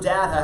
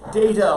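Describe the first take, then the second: First: The first vowel is a short A sound. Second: The first vowel is a long A sound. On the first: "short A" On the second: "long A"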